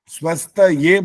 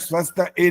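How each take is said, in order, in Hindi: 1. शब्द एक साफ़ 'ye' ध्वनि पर खत्म होता है। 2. शब्द एक सादी 'e' ध्वनि पर खत्म होता है। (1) "स्वस्थ ये बोलना है" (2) "स्वस्थ ए नहीं बोलना"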